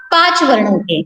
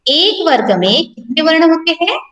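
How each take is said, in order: First: पांच stressed, falling at the end; answer stress. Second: Teacher asks with a rising end on हैं; quiz question. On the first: Teacher answers her own quiz, stressing the number. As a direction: give the answer, stressing पांच and letting it fall. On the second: Teacher quizzes the class, question rising at the end. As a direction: ask एक वर्ग में कितने वर्ण होते हैं, lifting हैं at the end. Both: Shown as a demonstration. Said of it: "बताइए मुझे".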